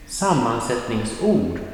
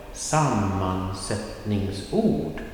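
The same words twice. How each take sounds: First: Said in the usual way. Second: "sammansättningsord" drawn out syllable by syllable; slow pronunciation. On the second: Shown as a demonstration. Teacher introducing "sammansättningsord" to Swedish learners, slow pronunciation. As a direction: say "sammansättningsord" slowly and carefully.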